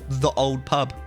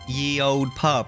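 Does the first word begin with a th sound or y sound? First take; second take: th sound; y sound. First: The first word begins with a th sound. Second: The first word begins with a y sound. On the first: The speaker calls it right. "it's actually just the old pub" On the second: The speaker calls it wrong. "everyone's all like"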